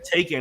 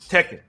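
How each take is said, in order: First: The first syllable sounds like 'take'. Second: The first syllable sounds like 'tech'. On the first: The speaker calls it wrong. "I was pronouncing the name wrong" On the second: The speaker calls it right. "you're like"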